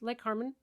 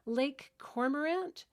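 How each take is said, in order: First: The name is shortened to two syllables. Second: The name is said in full with three syllables.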